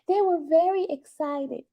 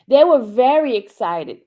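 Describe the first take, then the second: First: It is said in a put-on imitated voice. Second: It is said in the speaker's normal voice. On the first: The speaker calls it right. "I'm doing her voice" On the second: The speaker calls it wrong. "I forgot"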